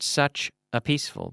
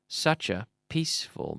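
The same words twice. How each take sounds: First: The words such and a are separated. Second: The words such and a are linked. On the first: The speaker calls it wrong. "Not such a peaceful" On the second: The speaker calls it right. "but such a peaceful man"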